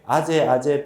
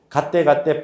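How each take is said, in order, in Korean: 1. 각 단어는 평범한 모음 소리로 시작합니다. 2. 각 단어는 강한 g 소리로 시작합니다. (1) "우리는 왜 아제 아제 ... 읽느냐" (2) "여기 나오는데 왜 발음이 이러냐"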